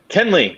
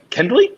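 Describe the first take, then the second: First: The name is said without a D sound. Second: The name is said with a D sound. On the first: The speaker calls it right. "just [name]" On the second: The speaker calls it wrong. "So so don't say the D"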